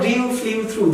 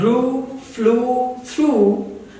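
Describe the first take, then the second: First: The vowels are not plain oo sounds. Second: The vowels are plain oo sounds. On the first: The speaker calls it wrong. "not ... They are wrong" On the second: The speaker calls it right. "with the U sound"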